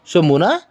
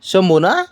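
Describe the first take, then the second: No difference in how they are said.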